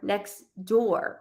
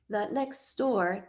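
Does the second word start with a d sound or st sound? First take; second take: d sound; st sound. First: The second word starts with a d sound. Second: The second word starts with an st sound. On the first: The speaker calls it right. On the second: The speaker calls it wrong.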